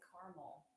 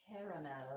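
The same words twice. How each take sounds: First: The word is said shortened, with syllables dropped. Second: The word is said fully, with every syllable. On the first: This is the speaker's own Texas way of saying it. "I say caramel. ... you're just kind of like half doing it" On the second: This is how another family member says it. "My husband thinks it's caramel"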